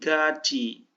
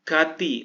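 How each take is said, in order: First: The middle consonant is a 'ch' sound. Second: The middle consonant is a 't' sound.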